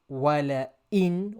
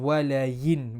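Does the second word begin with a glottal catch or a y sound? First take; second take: glottal catch; y sound. First: The second word starts with a clear glottal catch. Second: The second word starts with a y sound. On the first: The speaker calls it right. "making the Hamza clear" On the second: The speaker calls it wrong. "with a ya"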